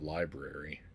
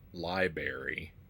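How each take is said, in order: First: The first R sound is pronounced. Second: The first R sound is dropped. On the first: The speaker calls it right. "instead of library" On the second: The speaker calls it wrong. "when someone says library"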